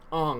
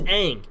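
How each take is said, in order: First: The vowel sounds like the one in 'on'. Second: The vowel sounds like the one in 'ang'. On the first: This is the changed version of the name. The speaker calls it wrong. "you can't change the way the main character's name is pronounced" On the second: This is how the name was always said. The speaker calls it right. "It's always been Aang"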